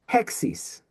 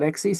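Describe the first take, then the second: First: The word starts with a breathy h sound. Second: The word starts directly with a vowel. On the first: The speaker calls it right. "it's hexis" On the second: The speaker calls it wrong. "it's not exis"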